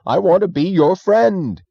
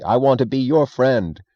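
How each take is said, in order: First: High, loud, slow plea; crying out. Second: Said in the usual way. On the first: Acted. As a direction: cry it out to the empty room. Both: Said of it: "he cried to the space at large".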